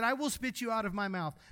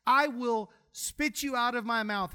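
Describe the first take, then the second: First: Said in the usual way. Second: Slow, weighty words, WILL leaned on; slow emphatic quote. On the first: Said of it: "now y'all listen". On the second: Shown as a demonstration. Preacher stresses the verse for the congregation, slow and weighty. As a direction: let each word land. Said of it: "Read the words, folks".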